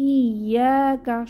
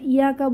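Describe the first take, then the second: First: The y sound is strong and doubled. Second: The y sound is short and single. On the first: The speaker calls it right. "ইয়াকা শক্তভাবে" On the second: The speaker calls it wrong. "এটা ইয়াকা বলবো না"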